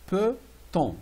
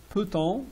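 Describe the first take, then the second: First: "peut-on" split in two, higher, pause between; syllable by syllable. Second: Said in the usual way. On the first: Shown as a demonstration. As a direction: break "peut-on" into "peut" and "on". Teacher splits word into parts.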